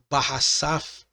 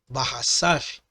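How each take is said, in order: The two takes are said the same way.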